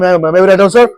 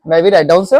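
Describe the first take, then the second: First: It is said in a harsh, angry tone. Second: It is said in a gentle, polite tone. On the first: The speaker sounds like they are demanding, not asking. The speaker calls it wrong. "ऐसे गुस्सा में नहीं बोल रहा, मुझे डरा मत देना" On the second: The speaker is respectfully asking permission. The speaker calls it right. "वो भी पोलाइटली बोल रहा है"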